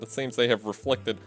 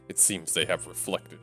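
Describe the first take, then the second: First: It is said in an ordinary, non-tough voice. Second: It is said in a tough, hard-edged voice. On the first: The speaker calls it wrong. "I'm doing the wrong voice for him" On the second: The speaker calls it right. "He's a badass"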